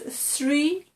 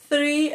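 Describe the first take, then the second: First: The word begins with an s sound. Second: The word begins with a th sound. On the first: The speaker calls it wrong. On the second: The speaker calls it right.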